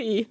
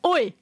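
First: It sounds soft and apologetic. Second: It sounds aggressive, like a UK confrontation.

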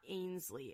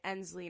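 First: The first vowel sounds like the vowel in 'rain'. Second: The first vowel sounds like the vowel in 'end'. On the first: The speaker calls it wrong. "not Ainsley" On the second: The speaker calls it right. "I think they're pronouncing it Ensley"

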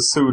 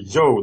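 First: The word begins with a plain s sound. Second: The word begins with a zh sound. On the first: The speaker calls it wrong. "It's not pronounced the Su dynasty" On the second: The speaker calls it right. "but the Zhou dynasty"

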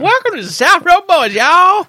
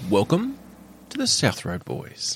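First: It is said in a twangy cowboy rodeo voice. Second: It is said in a smooth professional radio voice.

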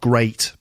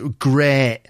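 First: The vowel is said in a standard English accent. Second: The vowel is said in a northern English accent. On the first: "not great" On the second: "it's sort of in the vowel sounds, great"

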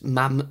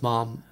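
First: The vowel is short, as in ham. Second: The vowel is long, as in farm. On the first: The speaker calls it right. "it's mam as in ham" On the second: The speaker calls it wrong. "not mom as in jam"

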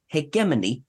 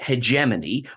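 First: It is said with the British pronunciation. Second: It is said with the American pronunciation. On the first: The speaker calls it right. "is how it is pronounced in UK, Ireland" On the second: The speaker calls it wrong. "which I have learned is the American pronunciation"

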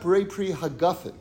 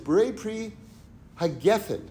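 First: The last word uses the sentence-final vowel form. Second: The last word uses the mid-sentence vowel form. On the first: The word is treated as ending the sentence. "the official grammatical way" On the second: The word is treated as standing mid-sentence. "he says"

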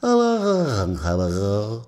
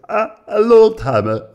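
First: It is said in his normal voice. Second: It is said in a put-on voice.

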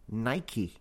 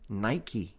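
The two takes are said the same way.

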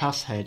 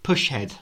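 First: The first syllable ends with an 's' sound. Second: The first syllable ends with an 'sh' sound. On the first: "But then it's P-U-S" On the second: "I initially thought push head"

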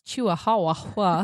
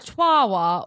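First: The word is sounded out from its spelling. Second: The word gets its usual pronunciation. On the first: "if you're a 10-year-old Taylor and you read it and you're trying to figure it out, it's Chihuahua" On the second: "So Chihuahua"

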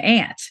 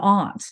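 First: The vowel is the flat American one. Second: The vowel is the broad Southern British one. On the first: "But in American English, you have an aunt" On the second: "or Southern British English, I should say, you have an aunt"

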